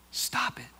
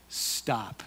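First: Breathy whispered "Stop it". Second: A low, soft, firm stop. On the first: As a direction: hush them with a whisper. Repeated command, whispered. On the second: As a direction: quietly halt them in Jesus' voice. Jesus tells weary people to stop. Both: Acted.

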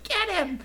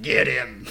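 First: Very high, squeaky mock attack call; terrible actor, high voice. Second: Louder mock attack call in ordinary-low pitch; terrible actor, lower voice. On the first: Imitating one enemy guy, badly acted high-pitched call. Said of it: "So one guy might be like". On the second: Imitating the next enemy guy, badly acted loud call. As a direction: bark it like another bad voice actor. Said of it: "And then the next guy's like".

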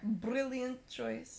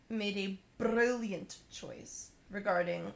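First: Put-on drawn-out, lightly accented brilliant choice; slow, hammed-up Scottish twang. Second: Slow, slightly Scottish-sounding read; hint of a put-on Scottish accent. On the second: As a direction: slip into a light Scottish-Russian accent. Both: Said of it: "Got a little Scottish there".

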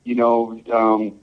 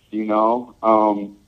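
Both takes have the same delivery.

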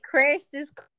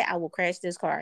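First: Higher, disbelieving echo of the threat; taken aback, voice lifted; incredulous echo. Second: Low, understated threat as her husband; deadpan husband voice, pitched down; imitating stern husband. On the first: Retold or imitated. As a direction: repeat it back as a startled question. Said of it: "I said". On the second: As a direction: quote his threat low and level. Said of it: "He said it just like that".

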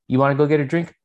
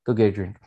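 First: Light rising offer; asking question. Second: Said in the usual way. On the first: Retold or imitated. Lists her options.

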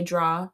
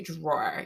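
First: "draw" with no R at the end; Jamaican pronunciation. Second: "drawer" with the final R sounded; R pronounced. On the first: Explaining Jamaican speech, "draw" without the R. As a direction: say "draw" open, rhyming with "saw". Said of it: "sounds like a Jamaican accent". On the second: Explaining Jamaican speech, "drawer" with the R. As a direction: end "drawer" on a clear R. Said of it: "You don't say". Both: Shown as a demonstration.

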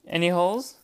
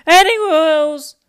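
First: Said in the usual way. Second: Much higher and louder, slow; loud repeat. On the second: Real, not acted. Testing a phrase while editing, loud and high. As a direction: belt out the question.

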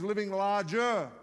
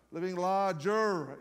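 First: Said in the usual way. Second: Drawn-out American r's on LARGER; poor American accent. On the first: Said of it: "if you're American". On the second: Shown as a demonstration. Foreign preacher jokingly redoing the series title, poor American accent. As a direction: attempt a slow American accent. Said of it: "very poor attempt at an American accent".

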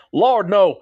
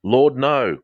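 First: High, loud Texan drawl on LORD, NO; Texan accent. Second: Said in the usual way. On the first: Shown as a demonstration. Host redoing a listener's comment in a hammed-up Texan accent. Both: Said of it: "can I say it in a text and accent".

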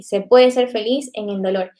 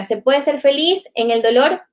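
First: "se puede ser feliz en el dolor" stated with weight on "puede" and a falling tune; firm answer. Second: "¿se puede ser feliz en el dolor" with a rising questioning tune; asking question. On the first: Preacher answering her own question, firm falling statement. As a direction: answer it, leaning on "puede", ending down. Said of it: "claro que sí". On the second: Preacher repeating the group's question, rising question tune. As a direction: pose "feliz" as an open question, lifting at the end. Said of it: "la pregunta era". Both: Shown as a demonstration.

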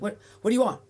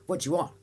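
First: Loud and higher, blunt New York snap; aggressive bark. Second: Mild retold shopkeeper's curt question; lightly voiced blunt shop clerk. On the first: Retold or imitated. New York shop clerk barking at a customer, loud and higher. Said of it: "And no, no, it was, it was like". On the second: Shop clerk to a customer, mild curt question. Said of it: "And no, no, it was".

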